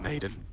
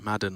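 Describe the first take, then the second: First: The first vowel sounds like in 'made'. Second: The first vowel sounds like in 'mad'. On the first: The speaker calls it wrong. "I keep calling him Maiden" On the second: The speaker calls it right. "like the N F L"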